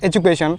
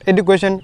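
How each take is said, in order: First: The middle consonant sounds like j. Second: The middle consonant is a plain d sound. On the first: The speaker calls it right. "ডি থাকলে বর্গীয় জ জ উচ্চারণ হয়" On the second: The speaker calls it wrong. "it's not education"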